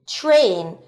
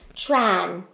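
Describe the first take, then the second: First: The vowel is a long ay sound. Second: The vowel is a short ah sound. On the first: The speaker calls it right. "It says its name, A" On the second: The speaker calls it wrong. "instead of using the ah vowel sound that A makes"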